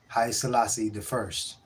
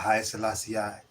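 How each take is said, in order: First: The numeral is read aloud as 'the first'. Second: The numeral is read aloud as the letter 'eye'. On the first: The speaker calls it right. "It's Haile Selassie, Haile Selassie the first" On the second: The speaker calls it wrong. "Not Haile Selassie I"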